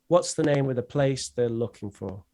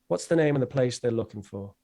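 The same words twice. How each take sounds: First: The sentence is said more slowly, keeping weak forms. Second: The sentence is said at natural conversational speed.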